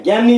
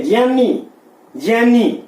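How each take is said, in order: First: ज्ञानी said with a hard g, as gyani; ज्ञानी with g plus y, shown as the error; wrong gyani. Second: ज्ञानी as dj-yaani, the correct Sanskrit way; correct jnyani. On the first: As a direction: pronounce ज्ञानी as gyaani, the mistaken way. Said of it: "ज्ञानी नहीं है". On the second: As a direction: pronounce ज्ञानी starting on j, not g. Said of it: "कहने का मतलब क्या है कि ये ज्ञानी है". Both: Shown as a demonstration.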